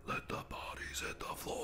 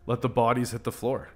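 First: Mock menacing whisper. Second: Said in the usual way. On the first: Gamer about to take out one last guy, mock menacing whisper. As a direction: whisper the lyric like a creeping killer.

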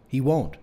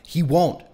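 First: Said in the usual way. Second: Higher, louder, cutting reply; snapped. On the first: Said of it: "I said". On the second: A narrator's reading. Brother to sister who fears their friend may die, snapped. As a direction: snap it back to shut the worry down. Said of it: "I snapped".

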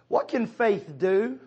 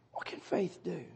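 First: Slow, higher question to the church; slow rhetorical question. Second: Much softer echo of "What can faith do?"; hushed repeat. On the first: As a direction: ask "What can faith do?" slowly with a rising tune. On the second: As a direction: let "What can faith do?" drop to a near hush. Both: Shown as a demonstration.

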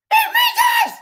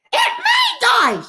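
First: Shrieked, far higher and louder; shrill, disbelieving scream; shocked shout. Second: Drawn-out, much higher shocked cry; slow, high-pitched gasp of disbelief. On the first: Repeats the news as a shout. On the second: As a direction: let the news land slowly, in disbelief. Shock at Aunt May's death. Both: Real, not acted.

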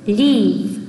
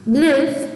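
First: "leave" with a long, tense ee. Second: "live" with a short, lax i. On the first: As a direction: draw out the ee in "leave". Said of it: "길게 발음하는 것을 표현합니다". ("leave"를 긴 장음 '이'로) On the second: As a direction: relax the vowel in "live", not ee. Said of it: "발음이 다릅니다". ("live"를 짧고 느슨한 '이' 소리로) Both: Shown as a demonstration.

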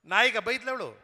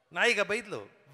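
First: Said in the usual way. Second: Slow punchline. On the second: Shown as a demonstration. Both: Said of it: "ಭಾಷೆಯ ಚಮತ್ಕಾರ ನೋಡಿ".

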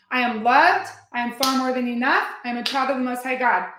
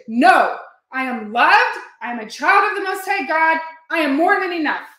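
First: Repeated affirmation. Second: Louder and higher, overriding the doubt; declaring affirmation louder. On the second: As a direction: proclaim it with full conviction. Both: Shown as a demonstration. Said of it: "you just say it over and over".

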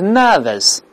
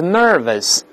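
First: British nervous, higher, with no r at all; British pronunciation. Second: American nervous, r in the first syllable only; American pronunciation. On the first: Teacher contrasts the two accents, British nervous without r. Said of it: "英国是nervous". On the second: Teacher contrasts the two accents, American nervous with r. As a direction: say nervous the American way, ner curled. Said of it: "美国是nervous". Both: Shown as a demonstration.

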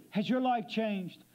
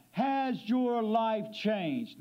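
First: Said in the usual way. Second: "has your life changed" drawn out at half speed, each word weighted; slow emphatic repeat. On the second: Real, not acted. Preacher repeats his key question to the congregation, slow and emphatic.

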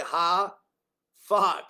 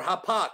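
First: "hafak" in two drawn-out syllables, HA, pause, FAK; pronunciation demo. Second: "hapak" said with a p in the middle, ha-PAK; alternative pronunciation. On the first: Preacher teaching the Hebrew word, "hafak" split as ha-fak with an f. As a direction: sound out "hafak" slowly with an f in the middle. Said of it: "that's how you pronounce it". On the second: Preacher offering another Hebrew pronunciation, "hapak" with a hard p. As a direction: say "hapak" as one word, p instead of f. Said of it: "how about that?". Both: Shown as a demonstration.

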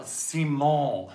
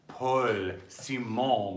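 First: Playing Simon. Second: Said in the usual way. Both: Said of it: "I'm going to play".

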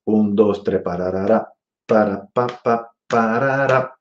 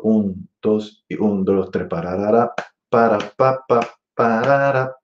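First: Scat phrase leaning on one and three; accents on one and three. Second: Scat phrase leaning on two and four; accents on two and four. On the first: Teacher comparing accents, sung on one and three. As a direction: feel one and three as you sing. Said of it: "Vuelvo en uno y tres". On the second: Teacher comparing accents, sung on two and four. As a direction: feel two and four as you sing. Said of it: "Y en dos y cuatro". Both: Shown as a demonstration.

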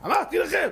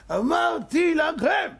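First: High-pitched exclamation, first time; exclaiming. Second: High, slow full shout. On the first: Teller crying out to his listeners, high exclamation. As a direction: cry it out high, building toward a shout. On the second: Teller shouting the repeat at his listeners, slow and high. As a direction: stretch and bellow אמרתי, stressing אמרתי. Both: Acted.

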